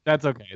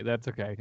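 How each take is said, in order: First: Said in the usual way. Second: "That's okay" dropped much softer; softer repeat. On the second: Real, not acted. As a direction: let "That's okay" fall away quietly.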